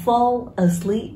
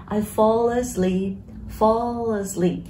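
First: "fall asleep" as two distinct words; separate words. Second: "fall asleep" slow, the l flowing into "a"; linked sounds. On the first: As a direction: keep "fall" apart from "asleep". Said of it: "Tôi đã đọc là fall asleep". (đọc tách rời "fall" và "asleep") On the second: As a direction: say "fall asleep" slowly as "faw-la-sleep". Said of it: "trong bài hát nó đọc nối âm luôn". (đọc nối âm "fall asleep" thành "fo-lơ-slíp") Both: Shown as a demonstration.

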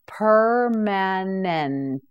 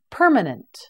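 First: Very slow, drawn-out syllables; slow model word. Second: Said in the usual way. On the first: Shown as a demonstration. Teacher models the word for students, very slowly. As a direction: stretch it out for the learner. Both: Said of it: "You say it, permanent".

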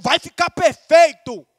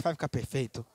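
First: Slow, rousing encouragement; rally them with a drawn-out, emphatic declaration; encorajando. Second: Low, soft, discouraged demo; desânimo. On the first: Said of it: "Fala encorajando". (encorajando com entusiasmo) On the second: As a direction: let it sink away as if unconvinced. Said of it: "se você falar assim com desânimo". (com voz de desânimo) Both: Shown as a demonstration.

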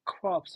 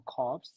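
First: Crops with the R after the C; pronounced with r. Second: Crops with the R dropped; pronounced without r. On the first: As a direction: say "crops" as krawps, R sounded. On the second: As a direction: say "crops" as kawps, no R. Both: Shown as a demonstration. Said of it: "how to pronounce".

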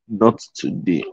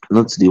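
First: Muttered softly through a yawn. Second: Said in the usual way. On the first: Real, not acted. Speaker caught yawning mid-talk, mumbles it through the yawn. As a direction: let a yawn swallow the words, much softer. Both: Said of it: "Why am I yawning today again?".

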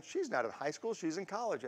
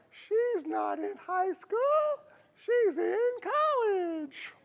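First: Soft, understated imitation of a Southern accent; light Southern accent. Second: Very high, slow, drawn-out mock Southern drawl; hammed-up Southern accent. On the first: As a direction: toss off a mild Southern lilt quietly. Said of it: "her kind of Southern accent". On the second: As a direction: stretch it out in a badly faked high Southern voice. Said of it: "I can't do a Southern voice".

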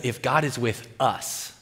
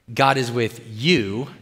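First: "us" leaned on at the end; stress on US. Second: "you" set apart and drawn out; stress on YOU. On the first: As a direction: put the weight on "us". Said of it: "He's changing the subject a little bit". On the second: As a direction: land slowly on "you". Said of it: "you notice the tense change there". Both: Acted.

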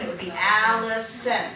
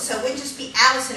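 First: Allison with mouth opened wide on the stressed syllable. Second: Said in the usual way. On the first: Shown as a demonstration. Puppet teacher demonstrating a wide-mouthed Allison, stressed. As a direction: stretch the Al of Allison wide open. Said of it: "opened my mouth a little bit wider where the emphasis was". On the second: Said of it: "I kind of opened my mouth a little bit wider".

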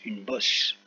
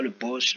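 First: Said in the usual way. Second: "boss" said as the English word; English pronunciation. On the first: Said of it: "c'est la bosse du chameau". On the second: Shown as a demonstration. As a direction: give "boss" its English vowel. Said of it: "it's a boss in English". (« boss » prononcé à l'anglaise)

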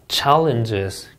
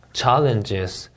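No difference in how they are said.

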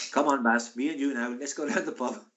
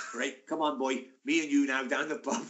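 First: Badly faked Welsh with an Indian-sounding lilt; botched Welsh accent, sounding Indian. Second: Light imitation of a South Wales accent; Swansea accent. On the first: Teammate coaxing his pal to the pub, Indian-sounding Welsh accent. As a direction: attempt at South Wales lilt drifting into Indian. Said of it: "that's an Indian accent". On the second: Swansea teammate coaxing his pal out, mock Welsh accent. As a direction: have a go at a Swansea Welsh lilt. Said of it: "he's from Swansea".

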